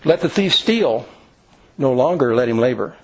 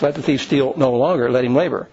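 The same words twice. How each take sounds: First: The pause comes after the word steal. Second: The pause comes after the word longer.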